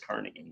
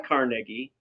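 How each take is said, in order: First: It uses the local pronunciation of the town. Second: It uses the pronunciation heard for the surname. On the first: It refers to the town. "they call the place Carnegie" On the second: It refers to the person. "I've never heard anyone call the guy Carnegie"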